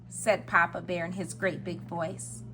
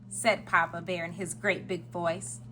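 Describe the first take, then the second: Both takes have the same delivery.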